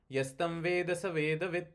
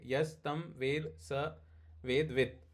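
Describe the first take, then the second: First: The phrase is spoken fast, words run together. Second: The phrase is spoken slowly, word by word. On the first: "But when you read fast" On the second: "like if you read, you will read"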